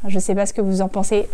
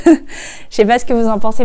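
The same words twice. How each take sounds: First: Said in the usual way. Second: Loud, amused YouTuber patter; mock YouTuber. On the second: Vlogger teasing herself as a real YouTuber, mock YouTuber. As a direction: send up a vlogger, louder. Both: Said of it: "chez la vraie youtubeuse".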